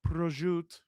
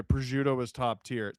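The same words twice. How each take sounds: First: "Prosciutto" softer, savoured, rolled like an Italian "ro-shoot"; Italian-ish pronunciation. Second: Said in the usual way. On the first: Shown as a demonstration. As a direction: say "Prosciutto" softly like a foodie in Italy.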